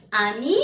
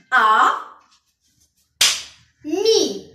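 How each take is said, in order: First: Said in the usual way. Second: Loud "A", very long pause, higher "mi"; "A, mi" sounded out one syllable at a time; split into syllables. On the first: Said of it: "contient deux syllabes". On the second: Shown as a demonstration. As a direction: break "A... mi" into two strong beats. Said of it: "Il y a ici deux syllabes".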